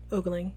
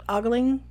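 First: Ogling said as OH-gling, long oh vowel; settled pronunciation. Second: Ogling said as AH-gling, open ah vowel; wrong try. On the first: Reader choosing the word, ogling as OH-gling. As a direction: land on ogling with an oh sound. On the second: Reader testing a word, ogling as AH-gling. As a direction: try ogling with an ah sound, unsure. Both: Shown as a demonstration. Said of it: "We're gonna go with ogling".

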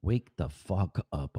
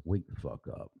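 First: Slow, drawn-out wake the fuck up; exasperated urging. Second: Much softer, muttered under the breath. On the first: Host urging himself awake before work, slow and exasperated. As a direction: drag each word out in weary exasperation. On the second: Host muttering at himself to wake up, much softer. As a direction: mutter it almost to yourself. Repeated urging at dawn. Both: Real, not acted.

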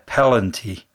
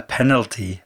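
First: "pellenty", with the l and n swapped round; mispronounced penalty. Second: Said in the usual way. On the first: Shown as a demonstration. Man confessing an old habit at work, "pellenty" mispronounced with l before n. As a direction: say "pellenty" as a lazy slip for penalty. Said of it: "completely missed out the N". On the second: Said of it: "I always call".

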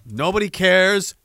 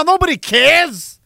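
First: Said in the usual way. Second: High, loud, slow, stretched-out yell; angry shout. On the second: Real, not acted. Fed-up streamer shouting at a chatter. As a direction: really let the frustration out. Streamer ranting at a super chat.

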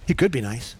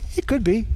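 First: Said in the usual way. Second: Could lifted high and leaned on; "could" stressed, higher than the rest. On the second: Shown as a demonstration. To the church, weighing whether Jesus was nice: could stressed. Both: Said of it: "I wouldn't say he was nice".

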